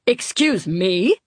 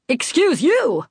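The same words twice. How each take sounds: First: Indignant question. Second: Higher, pointed comeback; indignant retort. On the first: Indignant comeback in airport row. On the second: Man to woman he jostled at airport, indignant retort. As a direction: throw it back with acted indignation. Rude man snaps back. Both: A narrator's reading.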